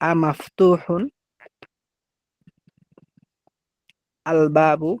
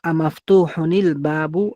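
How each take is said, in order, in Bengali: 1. শেষের অংশটি আলাদা করে বলা হয়, আলাদা 'al'-এর আগে। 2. শেষটি '-nil' উচ্চারণে পরের শব্দের সাথে যুক্ত হয়। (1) "মূলত ছিল" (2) "মিলাই বলতে মাফতুহুনিল বলতে হবে"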